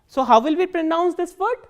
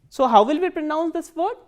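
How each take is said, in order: No difference in how they are said.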